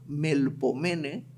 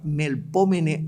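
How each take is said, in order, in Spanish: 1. El acento recae en la sílaba 'me'. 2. El acento recae en la sílaba 'pó'.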